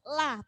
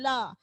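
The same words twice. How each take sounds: First: The l is light and thin. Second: The l is heavy and full. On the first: The speaker calls it right. "huruf la itu huruf tipis. Jadi bunyinya harus harus la" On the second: The speaker calls it wrong. "bukan la"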